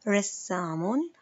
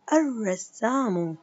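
First: رسام slowly, no al; rassam, stretched; bare word slow. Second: الرسام slowly, no l, double r, ending -u; arrassamu, drawn out. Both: Shown as a demonstration. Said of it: "سأعيد قراءة الكلمات".

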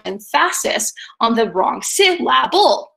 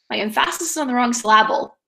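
First: "emphasis" as em-FA-sis, "syllable" as sil-LA-ble; wrong-syllable stress. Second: "emphasis" as em-FA-sis, "syllable" as sil-LA-ble, run together; wrong-syllable stress. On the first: Teacher shows how weird misplaced stress sounds, em-FA-sis, sil-LA-ble. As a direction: punch the middle of "emphasis" and "syllable". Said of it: "It would sound really weird if I started to".

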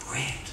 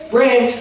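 First: Very soft, lower call; still small voice. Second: Loud, high call by name. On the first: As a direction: call his name barely audibly. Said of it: "still small voice". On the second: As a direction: call out to get his attention. God calling, before the soft retake. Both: Retold or imitated.

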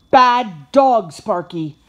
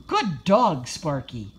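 First: Loud, sharp reprimand, easing on the name; scolding. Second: Pleased trainer's praise, falling away on the name; praising. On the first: Josh catching his puppy eating treats, scolding. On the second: Josh to his puppy after a sit, praising. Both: A narrator's reading.

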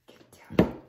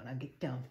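First: Loud unvoiced get down; hissed loud command to the dog; sharp shout at dog. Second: Said in the usual way. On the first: Real, not acted. Ordering dog loudly.

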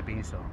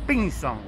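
First: Said in the usual way. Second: "Pinzón" said as PÍNzon, stress on the first syllable; old Boca pronunciation. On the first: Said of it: "en vez de". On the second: Retold or imitated. Quoting old Boca residents, "Pinzón" stressed on the first syllable. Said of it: "los viejos boquenses dicen".

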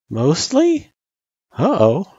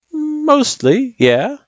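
First: Put-on high, questioning kid's echo; worried echo. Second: Drawn-out, high hedging answer. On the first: Frisk doubting her test result, worried echo. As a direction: echo it back as an anxious question. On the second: Acted. Sans grading the kid's test, hedging. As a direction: stretch it out as a reluctant verdict.

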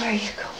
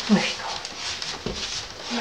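First: Said in the usual way. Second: Breathy slow whisper. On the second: Real, not acted. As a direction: hush it out slowly. Whispering to the dog.

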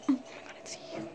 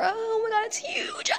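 First: Whisper. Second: Scared squeal. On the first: Same words whispered right after. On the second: Shrieks at spider. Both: Real, not acted.

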